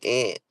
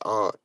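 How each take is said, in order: First: It rhymes with 'ant', like the bug. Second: It sounds like 'aren't', Boston style.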